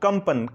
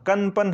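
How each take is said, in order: First: The middle nasal is pronounced as an 'm'. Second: The middle nasal is pronounced as an 'n'. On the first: The speaker calls it right. "इस बिंदी का आधा मां की तरह हमने इस्तेमाल किया" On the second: The speaker calls it wrong. "कनपन हम यहां नहीं बोलते हैं"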